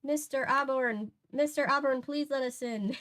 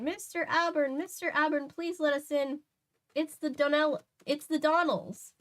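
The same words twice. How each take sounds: First: Lightly higher stage Irish plea; a second, milder go at the Irish lilt; Irish accent. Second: High, pleading comic Irish woman; Irish accent. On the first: Woman at the door repeating her plea, lighter Irish accent. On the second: Woman at the door begging Nancy to let them in, Irish accent. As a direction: call through the door in a stage Irish lilt. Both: Acted. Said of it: "The Donnells are probably Irish, right?".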